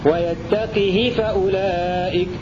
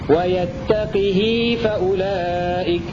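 First: The h has a short i vowel. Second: The h has a lengthened i vowel. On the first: "بكسر القاف وكسر الهاء من غير صلة" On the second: "بكسر القاف والهاء وصلتها بمقدار حركتين"

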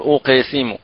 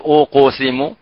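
First: The bounce after q is colored like i. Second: The bounce after q is colored like u. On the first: "ولا نقول أوق سم ... ولا بالكسر" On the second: "لا نقول أوق سم ... لا بالضم"

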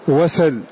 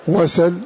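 No difference in how they are said.

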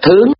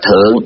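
First: The word has a high rising tone. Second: The word has a low, heavy falling tone. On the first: It means going up. "khi nó là động từ mình đọc là thướng" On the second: It means being above. "khi mà nó là trạng từ mình đọc là thượng"

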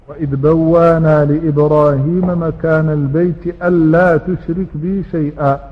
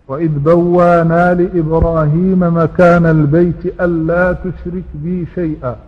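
Both takes have the same delivery.

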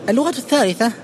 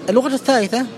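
The two takes are said the same way.

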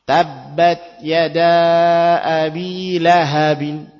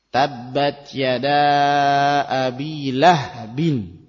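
First: The h is followed by a short a vowel. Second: The h is followed directly by the b. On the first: This is the widely known majority reading. "yang masyhur dengan ha yang di fathah" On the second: This is a less common minority reading. "qiraah Ibnu Katsir, itu haknya dibaca dengan sukun"

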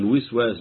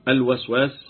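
First: The first vowel is 'i', as in wiswas. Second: The first vowel is 'a', as in waswas. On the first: It names the act of whispering. "بكسر الواو ده مصدر" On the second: It names the one who whispers. "بفتح الواو اسم"

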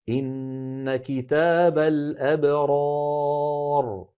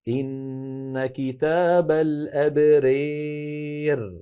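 First: The long vowel after r stays fully open 'a'. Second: The long vowel is pushed strongly toward an 'ee' sound. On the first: "أما الفتح فيكون هكذا" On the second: "بالنسبة للإمالة إمالة كبرى"

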